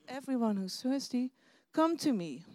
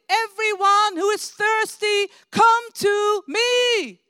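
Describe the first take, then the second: First: It is said quietly and hesitantly. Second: It is said loudly, as a shout.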